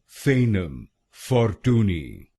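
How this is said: It is said with an American pronunciation.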